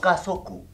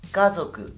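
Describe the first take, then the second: First: The z is a hissing, voiceless sound. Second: The z is a buzzing, voiced sound. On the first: The speaker calls it wrong. "no kazoku" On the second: The speaker calls it right. "la Z se pronuncia como el zumbar de una avispa"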